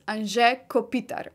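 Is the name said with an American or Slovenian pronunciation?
Slovenian. The name is said with a Slovenian pronunciation. This is how Slovenians say it. The speaker calls it right. "the Slovenian pronunciation is"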